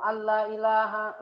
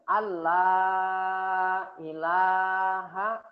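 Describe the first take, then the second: First: The vowel after the double l is short. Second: The vowel after the double l is long. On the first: There is a god. The speaker calls it wrong. "Kalau dibacanya pendek berarti terubah nanti artinya" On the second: There is no god. The speaker calls it right. "ini kan harusnya Allah"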